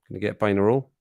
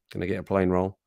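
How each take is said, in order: First: "plain roll" said as pie-in-a-roll, lifting at the end; "plain roll" slurred into pie in a roll; Scottish mishearing. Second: Said in the usual way. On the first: Shown as a demonstration. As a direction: drop the L so "plain roll" becomes "pie 'n' a roll". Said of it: "it sounds like pie in a roll". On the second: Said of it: "Which one was which there?".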